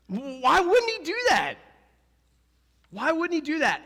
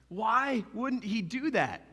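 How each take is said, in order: First: High, loud rhetorical demand; loud challenge. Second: Slow, drawn-out question; slow reflective repeat. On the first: Preacher pressing the congregation, high and loud. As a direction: fire the question at the crowd. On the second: Preacher repeating the question slowly so the crowd reflects. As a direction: let it sink in, slowly. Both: Shown as a demonstration. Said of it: "Ask yourself that".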